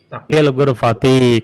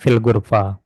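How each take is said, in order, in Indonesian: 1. Kata terakhir berakhir dengan vokal i pendek. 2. Kata terakhir berakhir tanpa vokal i akhir. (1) "Kalau mau dibaca di kasrah" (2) "kalau mau disukunkan"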